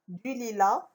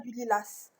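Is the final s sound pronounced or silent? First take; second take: silent; pronounced. First: The final s is not pronounced. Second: The final s is pronounced. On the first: The speaker calls it right. "donc la lettre muette, c'est S" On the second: The speaker calls it wrong. "On ne dit pas du lilas"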